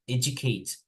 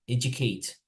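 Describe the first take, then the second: The two takes are said the same way.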